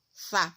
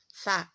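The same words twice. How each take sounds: No difference in how they are said.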